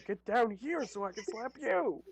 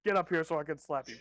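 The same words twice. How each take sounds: First: High, hammed-up play-fighting yell; higher mock threat. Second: Loud play-fighting threat; mock threat. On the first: Player mocking the slapping contest, high mock yell. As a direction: answer the joking challenge in a raised, high voice. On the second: Player mocking the slapping contest, loud mock threat. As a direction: call out a joking challenge, loudly.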